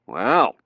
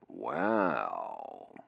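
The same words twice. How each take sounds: First: Loud, abrupt reaction; taken aback. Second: Long-drawn, very low musing; pondering. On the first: Dunworthy hearing Chiswick has quit, taken aback. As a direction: let it out loud on hearing the news. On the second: Dunworthy absorbing the resignation, slow low pondering. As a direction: stretch it low while thinking. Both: Acted.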